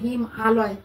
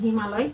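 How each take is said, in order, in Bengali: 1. দুটি অংশ আলাদা করে উচ্চারণ করা হয়, জোড়া লাগানো হয় না। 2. দুটি অংশ মিশে একটি শব্দ হয়ে যায়। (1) "শুনতে ওরকম শ্রুতিমধুর লাগবে না" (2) "শুনতে শ্রুতিমধুর লাগবে"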